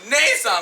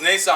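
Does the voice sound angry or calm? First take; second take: angry; calm. First: It is said in an angry tone. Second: It is said in a calm tone.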